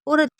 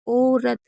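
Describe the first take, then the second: First: The first vowel is clipped short and quick. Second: The first vowel is drawn out long. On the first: The speaker calls it wrong. "औरत ऐसे तो नहीं बोलते" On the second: The speaker calls it right. "तो खींचते हैं sound को।"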